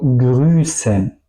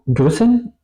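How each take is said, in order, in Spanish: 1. La S es larga. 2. La S es corta. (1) "digo grüßen ... la S después es también larga" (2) "Tampoco digo grüßen"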